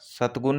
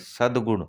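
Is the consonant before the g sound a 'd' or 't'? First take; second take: t; d. First: The middle consonant is a voiceless t sound. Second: The middle consonant is a voiced d sound. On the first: The speaker calls it wrong. "सतगुण नहीं" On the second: The speaker calls it right.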